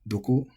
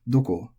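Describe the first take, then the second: First: The pitch starts low and then rises. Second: The pitch starts high and then falls. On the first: This is how younger speakers increasingly say it. "pronounced low to high" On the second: This is the standard pronunciation. "pronounced atamadaka, or head high"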